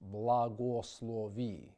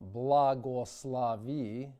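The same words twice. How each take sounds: First: Unstressed O vowels keep a full O sound. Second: Unstressed O vowels are reduced toward an A sound. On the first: The speaker calls it right. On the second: The speaker calls it wrong.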